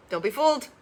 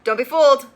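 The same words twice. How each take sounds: First: Said in the usual way. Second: Louder, falling, insistent; firm repeat; emphatic warning. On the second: Real, not acted. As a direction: drive the warning home.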